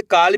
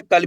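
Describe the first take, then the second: First: काल with a long open aa; long vowel. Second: कल with a short a, like 'cull'; short vowel. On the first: (काल में लंबा आ) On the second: (कल में छोटा अ) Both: Shown as a demonstration. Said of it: "वाक्य का उच्चारण देखना है".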